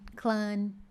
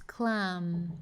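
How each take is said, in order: First: The word ends with an N sound. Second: The word ends with the lips closed. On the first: The speaker calls it wrong. "querendo fazer meio que um som de N, não é clam" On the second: The speaker calls it right. "Close your lips, fecha seus lábios"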